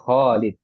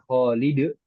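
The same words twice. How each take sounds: First: The final d ends plainly without bounce. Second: The final d ends with an echoing bounce. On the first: The speaker calls it right. "ya ini panjang pendek ya" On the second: The speaker calls it wrong. "misalnya kol-kolah, Khalid, nah itu baru salah"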